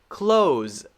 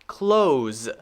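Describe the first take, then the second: First: The word ends in a Z sound. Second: The word ends in a Z sound.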